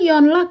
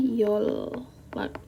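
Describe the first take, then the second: First: An n sound is heard before the l. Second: The n becomes l, with no n heard. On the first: The speaker calls it wrong. "kalau seandainya kita membaca sesuai dengan fitrahnya" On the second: The speaker calls it right. "N ini diubah menjadi L. Jadi bacanya Yolak"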